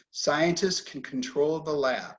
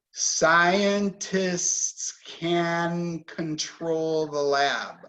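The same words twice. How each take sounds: First: Said in the usual way. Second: Words of the sentence drawn out and linked together; slow connected speech. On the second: Shown as a demonstration. Teacher models connecting the words, slow and linked. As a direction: stretch each sound slowly into the next. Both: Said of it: "So when we connect this, we say".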